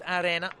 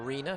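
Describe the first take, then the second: First: It is pronounced the Italian way. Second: It is pronounced the English way. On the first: "Even with the Italiano" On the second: "if you want the correct English pronunciation"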